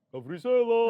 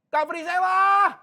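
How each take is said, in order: First: The name is called at moderate volume. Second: The name is called out loudly.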